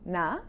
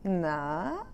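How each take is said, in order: First: The word is said very briefly. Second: The vowel is stretched out long. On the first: It is a simple casual greeting. "You can say it's super short, like this" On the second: The speaker is cheekily fishing for gossip. "Stretch the ah sound out a bit"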